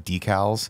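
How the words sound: It is said with an American pronunciation. "how we say decals"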